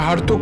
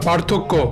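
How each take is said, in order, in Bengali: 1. শব্দটি 'হ' ধ্বনি দিয়ে শুরু হয়। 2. শব্দটি 'প' ধ্বনি দিয়ে শুরু হয়। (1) "ওটা হার্থক্য না"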